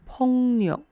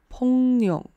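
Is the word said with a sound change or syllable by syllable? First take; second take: sound change; sound change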